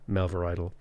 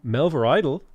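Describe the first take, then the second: First: It is said flat and monotone. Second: It is said in a lively, excited way. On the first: "not even like monotonely, not like" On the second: "like in a really kind of excited, excited way"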